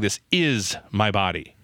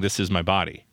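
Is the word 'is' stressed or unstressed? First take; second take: stressed; unstressed. First: The word 'is' is strongly stressed. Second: The word 'is' is not stressed.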